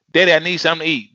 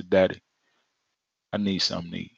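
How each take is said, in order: First: Fast, higher pleading; nagging child. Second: Low, soft, unhurried; calm single request. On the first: Child nagging father for food, fast and high. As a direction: rattle it off like a pestering kid. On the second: Child asking father once, softly. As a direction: ask once, trusting. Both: Retold or imitated.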